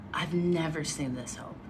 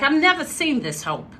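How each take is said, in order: First: Said in the usual way. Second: Put-on higher-pitched upper Northeast accent; Boston-like accent. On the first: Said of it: "almost like a Boston accent". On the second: Woman mimicking a guest's dad, Boston-like accent. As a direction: redo the quote in a New England accent. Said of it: "Actually, he said, like".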